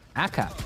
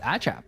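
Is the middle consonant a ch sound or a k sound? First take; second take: k sound; ch sound. First: The middle consonant is a hard k sound. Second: The middle consonant is a ch sound. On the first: The speaker calls it wrong. "I apologize for uh, for ACHAP for that pronunciation" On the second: The speaker calls it right. "is actually pronounced as ACHAP"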